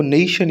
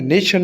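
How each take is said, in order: First: नेशन said "NEI-shan", first vowel drawn out; long stressed vowel. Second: नेशन said quickly as "neh-shan", no glide on "ने"; short unstretched vowel. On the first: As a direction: stretch the "ने" in नेशन into a long "नेई". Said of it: "आपको नेशन ही पढ़ना है". (नेशन को "नेई-शन" जैसा खींचकर) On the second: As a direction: keep the "ने" in नेशन short, without stretching. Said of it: "नेशन नहीं पढ़ना". (नेशन में "ने" छोटा, बिना खींचे) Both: Shown as a demonstration.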